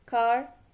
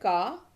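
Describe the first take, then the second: First: It is American, with the R pronounced. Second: It is British, with the R dropped.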